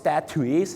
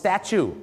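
First: The word is said in a Thai-style pronunciation. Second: The word is said in a native English pronunciation. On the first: The speaker calls it wrong. "ไม่ได้ออกเสียงว่า" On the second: The speaker calls it right. "เขาออกเสียงว่า"

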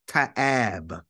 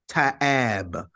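The two takes are said the same way.

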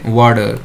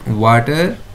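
First: The middle consonant sounds like a soft D. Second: The middle consonant is a clear T sound. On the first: "we say water" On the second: "Word water"

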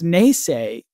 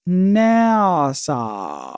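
First: It sounds like 'nay-say', ending in a 'say' sound. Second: It sounds like 'na-suh', ending in a weak vowel. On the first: The speaker calls it wrong. "maybe it's not pronounced naysay" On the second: The speaker calls it right. "Maybe it's pronounced NASA"

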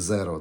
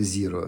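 First: The first vowel sounds like 'eh'. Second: The first vowel sounds like 'ee'. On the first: This is the Latin pronunciation. "на латинці це буде зеро" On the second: This is the English pronunciation. "Англійською це буде зіро"

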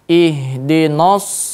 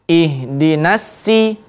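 First: Every letter is pronounced heavy and thick. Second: Every letter is pronounced light and thin. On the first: "kita akan menebalkan semua huruf" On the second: "kita mungkin menipiskan semua huruf"

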